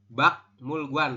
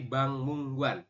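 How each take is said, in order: First: The first syllable ends with a k sound. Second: The first syllable ends with an ng sound. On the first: The speaker calls it wrong. "bukan Bak Mulguan" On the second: The speaker calls it right. "tapi Bang Mungguan"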